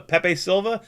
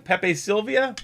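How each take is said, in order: First: "Silva" said as two syllables, SIL-va; Silva pronunciation. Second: "Sylvia" said as three syllables, SIL-vee-a; Sylvia pronunciation. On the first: Streamer to chat, unsure, trying "Silva" as SIL-va. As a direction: check the name, saying "Silva" as SIL-va. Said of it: "I thought it was Silva". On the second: Streamer to chat, testing "Sylvia" as SIL-vee-a. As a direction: try the name again as "Sylvia", SIL-vee-a. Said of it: "Is it Sylvia?". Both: Shown as a demonstration.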